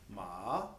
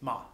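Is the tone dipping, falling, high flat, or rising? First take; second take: dipping; falling. First: The pitch dips down and comes back up. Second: The pitch falls sharply in a short syllable. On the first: "kind of a dipping tone" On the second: "very short and abrupt and a falling tone"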